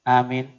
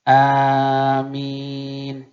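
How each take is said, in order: First: Both vowels are said short. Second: Both vowels are drawn out long. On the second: "panjang alif, panjang min"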